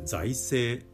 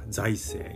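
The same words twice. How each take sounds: First: The pitch stays level without an initial peak. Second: The pitch peaks on the first syllable. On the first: The speaker calls it right. "本来は財政というふうなアクセントが本来なんですが正しい" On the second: The speaker calls it wrong. "国会では財政、やたら財政財政言います"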